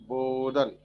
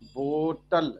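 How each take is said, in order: First: It is said in an American accent, t as d. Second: It is said in a plain Indian accent.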